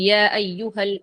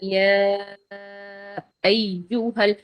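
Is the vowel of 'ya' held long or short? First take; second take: short; long. First: The vowel in 'ya' is held briefly. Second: The vowel in 'ya' is drawn out long. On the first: The speaker calls it wrong. "நோமலா" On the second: The speaker calls it right. "அப்ப இத கூடுதலா நீட்டுவோம் நாங்க"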